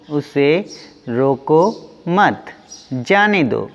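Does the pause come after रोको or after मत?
after मत. The pause comes right after मत. Do not stop the person; let them go. "दूसरे वाक्य में रोकने से मना किया जा रहा है"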